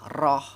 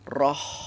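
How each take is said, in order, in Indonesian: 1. Bunyi h di akhir terputus tanpa hembusan napas. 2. Bunyi h di akhir mengalir keluar dengan hembusan napas yang terdengar. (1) "jangan dibaca roh, roh, rohmani, rohmani. Salah ya" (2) "Jadi dibaca roh, roh, roh. Jadi mengalir napas keluar dan suara"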